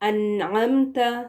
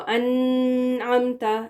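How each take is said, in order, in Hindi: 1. न की आवाज़ छोटी होती है और जल्दी छोड़ दी जाती है। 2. न की आवाज़ लंबी और नाक से निकलने वाली होती है। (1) "जल्दी से नून को क्लियरली प्रोनाउंस करके फिर आगे बढ़ना है" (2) "इसको अनअमता इस तरह से नहीं"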